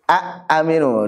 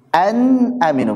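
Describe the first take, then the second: First: The n is merged away into the vowel. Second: The n is pronounced clearly and fully. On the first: The speaker calls it wrong. "dibaca idgham juga enggak cocok itu" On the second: The speaker calls it right. "Yang paling cocok"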